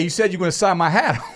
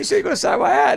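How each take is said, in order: First: It is said at the speaker's normal pitch. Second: It is said in a higher-pitched voice. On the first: "a little tone in my voice this time" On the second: "it was a little bit higher pitched because I was like thirteen"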